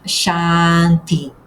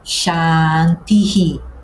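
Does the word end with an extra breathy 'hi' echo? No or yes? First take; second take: no; yes. First: The word ends plainly with no breathy echo. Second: The final vowel is echoed with a breathy h. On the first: The speaker calls it wrong. "não é apenas Shanti. O H aqui não é mudo" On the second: The speaker calls it right. "É por isso que a palavra fica Shantihi"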